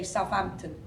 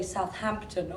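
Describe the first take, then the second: First: "Southampton" said loosely as Sahf-ampton; casual southern pronunciation. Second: "Southampton" with every sound neatly articulated, H included; posh pronunciation. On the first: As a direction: say "Southampton" the common way, TH as F, H dropped. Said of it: "I say Southampton". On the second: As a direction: say "Southampton" in careful posh British, as South-Hampton. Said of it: "Jack would say Southampton". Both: Shown as a demonstration.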